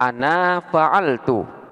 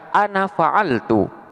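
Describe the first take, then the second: First: The final vowel of ana is long. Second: The final vowel of ana is short. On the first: The speaker calls it wrong. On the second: The speaker calls it right. "alif yang ada pada lafaz ana ini tidak dibaca"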